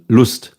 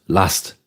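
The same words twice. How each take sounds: First: Lust with a German u as in "loose". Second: Lust with the English "uh" vowel, as in lust. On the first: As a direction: say Lust the German way, rounded oo vowel. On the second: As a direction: say Lust like the English word, short flat vowel. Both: Shown as a demonstration. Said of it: "This is Lust, Lust".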